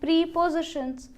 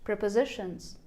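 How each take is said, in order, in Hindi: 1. इसकी शुरुआत लंबी 'pree' आवाज़ से होती है। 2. यह 'prep-uh' की तरह शुरू होता है, और ज़ोर तीसरे शब्दांश पर होता है। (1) "हमारे UP board Hindi medium schools में हमें पढ़ाया गया था" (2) "पी आर ई पी को एक साथ प्रोनाउंस करना है और ओ को प्रोनाउंस करना है यू एच"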